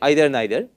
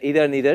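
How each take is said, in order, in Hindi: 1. पहला स्वर 'height' शब्द के स्वर जैसा है। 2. पहला स्वर 'see' शब्द के स्वर जैसा है। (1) "I say either neither, and that is why I am classifying them along with height" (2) "is also accepted"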